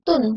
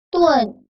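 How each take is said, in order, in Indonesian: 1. Vokal langsung dari u ke n. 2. Bunyi seperti e muncul di antara u dan n. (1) "tidak dibaca tun" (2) "Seperti ada huruf E-nya antara U dan N"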